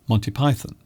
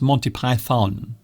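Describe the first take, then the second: First: The second syllable of Python is reduced. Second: The second syllable of Python is fully pronounced. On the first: The speaker calls it right. "it's Monty Python" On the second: The speaker calls it wrong. "not Monty Python. They are overpronouncing Python"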